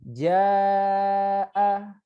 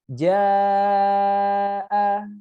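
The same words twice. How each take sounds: First: The vowel is held longer, four beats. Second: The vowel is held longest, five beats. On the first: "Kalau empat harokat dua kali ayun" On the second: "Setelah diayun dua kali, tambahkan sedikit"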